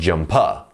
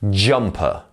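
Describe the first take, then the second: First: The stress is on the second syllable. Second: The stress is on the first syllable. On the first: The speaker calls it wrong. "not jumper" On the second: The speaker calls it right. "the first syllable here is the stressed syllable"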